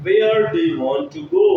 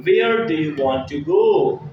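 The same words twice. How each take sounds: First: "Where do you want to go?" climbing higher to end on a lifted "go"; rising question tune. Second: Said in the usual way. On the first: Shown as a demonstration. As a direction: let "go" rise high like a real question. (आवाज़ ऊँची उठाकर "go" पर सवाल वाला उतार-चढ़ाव) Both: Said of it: "teacher models the English sentence".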